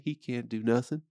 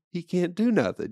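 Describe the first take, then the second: First: Said in the usual way. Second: He can't do nothing pushed up high; hammed-up insistent repeat; mock instructor, louder and higher. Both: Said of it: "They go".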